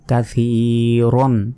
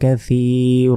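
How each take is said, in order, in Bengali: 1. শব্দটি ছোট 'an' ধ্বনি দিয়ে শেষ হয়। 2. শব্দটি দীর্ঘ, টানা 'a' দিয়ে শেষ হয়। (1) "এখানে না থামলে কাসীরন এভাবে" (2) "এই শেষে যদি থামি এবং দুই জবরে যদি ওয়াকফ করি ... র আলিফ জবর র এভাবে উচ্চারণ করতে হবে"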